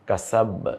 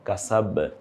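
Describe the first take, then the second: First: The final b bounces out with an echo. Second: The final b bounces out with an echo.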